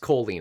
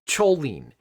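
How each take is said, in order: First: The word has its standard dictionary pronunciation. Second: The word is read the way it is spelled. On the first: The speaker calls it right. "It's pronounced choline" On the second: The speaker calls it wrong. "But not pronounced like that"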